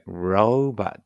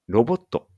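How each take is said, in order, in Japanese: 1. 英語風に発音されています。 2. 日本語のカタカナ風に発音されています。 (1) "robot って読むから気をつけてね" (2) "ロボットじゃなくて"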